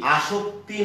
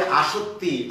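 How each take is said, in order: First: আসক্তি said with a k and t cluster, aktee; teacher marks আসক্তি with the kt sound as the error; wrong form. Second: আসক্তি said as আসত্তি, with a doubled t and no k; teacher models আসক্তি as আসত্তি, doubled t; correct spelling. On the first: Teacher warning students against the common misspelling, deliberate wrong pronunciation. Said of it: "নয় কিন্তু". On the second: Teacher showing students the right form, careful clear pronunciation. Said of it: "তোমরা খেয়াল করবে". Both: Shown as a demonstration.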